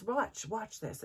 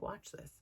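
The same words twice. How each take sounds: First: Teacher. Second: Whispered aside. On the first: Teacher tells mother confidentially. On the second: Teacher quietly telling mother to watch, whispered. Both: Retold or imitated.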